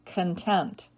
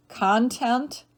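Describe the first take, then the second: First: Kun-TENT, second syllable stressed, falling. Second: CON-tent, first syllable stressed, rising. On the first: Teacher giving other pronunciation, content as kun-TENT. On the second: Teacher reading word list to students, content as CON-tent. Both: Shown as a demonstration. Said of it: "give you both pronunciations".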